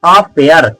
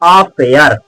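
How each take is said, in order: Both takes have the same delivery.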